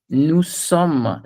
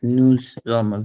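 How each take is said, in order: First: The second word begins with a clear S sound. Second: The second word begins with a Z sound. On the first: It means 'we are'. The speaker calls it right. "The S has to be very, very S. It can't be Z here" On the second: It sounds like saying 'we men'. The speaker calls it wrong. "the word that you're saying, it sounds to me like this"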